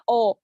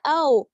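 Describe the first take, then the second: First: "O" as the unwanted pure vowel; teacher demonstrating the O to avoid; plain O. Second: "O" gliding toward oo; teacher modelling the wanted O; diphthong O. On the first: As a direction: show the wrong, undiphthonged "O". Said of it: "No, it's not a O". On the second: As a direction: demonstrate the gliding "O". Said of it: "it's a O". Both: Shown as a demonstration.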